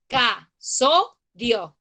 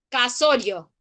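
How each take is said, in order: First: "Casorio" very slowly as ca - so - rio; teacher's syllable-by-syllable "Casorio", with pauses; split into syllables. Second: Said in the usual way. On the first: Shown as a demonstration. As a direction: break "Casorio" into three separate syllables: ca, so, rio. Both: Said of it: "Tenemos tres sílabas".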